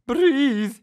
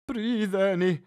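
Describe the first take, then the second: First: Urging. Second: Said in the usual way. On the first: A narrator's reading. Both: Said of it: "he urged".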